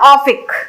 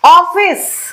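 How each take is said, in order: First: The word ends with a k sound. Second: The word ends with an s sound. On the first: The speaker calls it wrong. "Not ऑफिक" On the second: The speaker calls it right.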